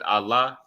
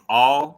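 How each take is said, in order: First: It is said like 'Allah'. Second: It is said like 'all'. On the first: The word means power. "if you pronounce it Allah, it means power" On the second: The word means to. "But if you pronounce it all"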